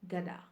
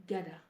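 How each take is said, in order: Both takes have the same delivery.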